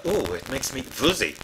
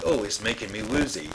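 First: Put-on light German accent on "woozy", first sound like a v. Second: Said in the usual way. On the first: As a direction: mimic a German singer saying "woozy" with a v. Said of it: "for a German it comes out". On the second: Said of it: "which is dead easy".

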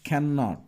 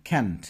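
First: Said in the usual way. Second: Can't as one short syllable, lower; contraction demo. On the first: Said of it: "is দিয়ে এই যে isn't". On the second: Shown as a demonstration. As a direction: clip cannot down to can't. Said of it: "can দিয়ে". (নিচু স্বরে ছোট করে can't)

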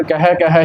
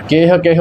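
First: ਕਹਿ ਕਹਿ with open kai-hai vowels; correct pronunciation. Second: ਕੇਹ ਕੇਹ with a close ay vowel; wrong pronunciation. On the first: Teacher showing learners the reading, open-vowelled ਕਹਿ ਕਹਿ. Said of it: "ਇਸ ਦਾ ਉਚਾਰਨ ਕਹਿ ਕਹਿ ਹੀ ਕਰਨਾ". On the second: Teacher warning learners of a misreading, close-vowelled ਕੇਹ ਕੇਹ. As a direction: say ਕੇਹ ਕੇਹ tight, like kay-h. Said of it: "ਕੇਹ ਕੇਹ ਉਚਾਰਨ ਇਸ ਦਾ ਨਹੀਂ". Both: Shown as a demonstration.

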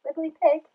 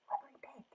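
First: High, questioning call of the name; checking call. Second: Very soft whisper of the name; whispered call. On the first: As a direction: call to see if they are awake. Calls to pig who may sleep. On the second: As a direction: whisper so as not to wake a sleeper. Pig may have fallen asleep. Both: Acted.

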